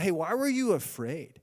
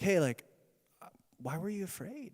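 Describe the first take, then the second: First: The question sounds harsh and scolding. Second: The question sounds gentle and tender. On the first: The listener is being blamed for the fear. The speaker calls it wrong. "It's not" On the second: The listener is being comforted and reassured. The speaker calls it right. "just as a father talks to his child"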